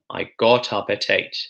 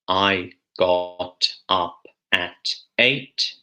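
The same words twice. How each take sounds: First: Final consonants join onto the following vowels smoothly. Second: The words are said slowly and kept separate. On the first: The speaker calls it right. "a little bit more natural way" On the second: The speaker calls it wrong. "it's too slow, it's not fluent"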